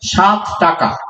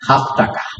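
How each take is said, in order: First: The first word begins with an s sound. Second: The first word begins with an h sound.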